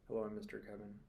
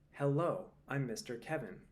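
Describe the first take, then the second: First: The words are mumbled and run together. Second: The words are crisply and clearly enunciated. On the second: "enunciating clearly"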